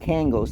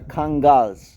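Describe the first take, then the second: First: The name is said with an American pronunciation. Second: The name is said with a Turkish pronunciation. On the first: The speaker calls it wrong. "They are not" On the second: The speaker calls it right. "they are"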